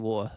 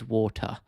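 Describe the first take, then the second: First: The word is said loosely, in casual speech. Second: The word is said carefully, with clear consonants. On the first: This is everyday relaxed conversation. "If I'm talking in casual conversation, I'll say water like that" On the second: This is deliberate, careful speech. "if I'm speaking coherently and just not flowing my sentences, it is water"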